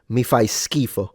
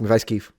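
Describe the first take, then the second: First: The phrase is said at a normal, unhurried speed. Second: The phrase is said quickly, with the ending dropped.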